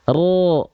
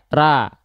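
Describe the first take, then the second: First: Thick, with the tongue root raised, lips unrounded. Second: Thin, with a plain a vowel and no rounding. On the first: "angkat pangkal lidahnya" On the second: "kalau kita tidak mengangkat pangkal lidah, bunyi vokalnya harus A"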